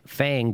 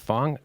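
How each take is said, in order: First: The vowel is the 'a' sound of 'cat'. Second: The vowel is the 'o' sound of 'long'. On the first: The speaker calls it wrong. "it's spelled with a A" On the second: The speaker calls it right. "but it's pronounced Fong"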